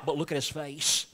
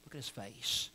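First: Said in the usual way. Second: Much softer, drawn in; tender quiet urging; hushed repeat. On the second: Real, not acted. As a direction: lower your voice to a near hush. Repeated softly.

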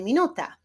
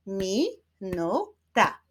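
First: Said in the usual way. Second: "Minuta" slowly, as mi, nu, ta; syllable by syllable. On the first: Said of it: "wyklaszczmy sylaby w wyrazie". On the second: Shown as a demonstration. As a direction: clap out "Minuta" in three separate beats. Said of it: "wyklaszczmy sylaby". („Minuta” powoli, sylabami: mi, nu, ta)

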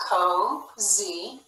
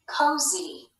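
First: COZY in two drawn-out beats, CO then ZEE; split into syllables. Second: Said in the usual way. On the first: Shown as a demonstration. Teacher reading a word together with pupils, sounded out in parts. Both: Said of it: "Let's read this one together".

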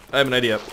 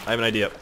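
No difference in how they are said.

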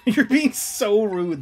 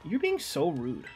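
First: Slow, loud laughing mock scold. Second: Said in the usual way.

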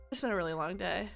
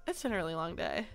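No difference in how they are said.

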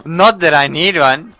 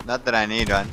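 First: Sarcastic. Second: Said in the usual way. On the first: Shown as a demonstration.

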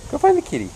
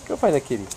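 First: Squeaky coaxing pet voice; high sing-song urging. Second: Said in the usual way. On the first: Real, not acted. High take of repeated line.

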